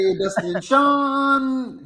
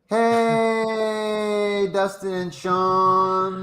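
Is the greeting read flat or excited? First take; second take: excited; flat. First: It is read with excitement, rising. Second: It is read flat, without excitement.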